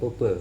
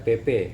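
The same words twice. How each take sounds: First: The letter names sound unusual, not the familiar reading. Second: The letter names sound familiar, the customary reading. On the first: The speaker hears this as a trendy, city-style reading. The speaker calls it wrong. "bukan P P" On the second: This is the customary reading of the abbreviation. The speaker calls it right. "disingkatnya P P"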